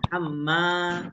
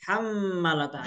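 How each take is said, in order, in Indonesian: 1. Vokal setelah m panjang. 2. Vokal setelah m pendek. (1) "dua harakat" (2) "Itu salah"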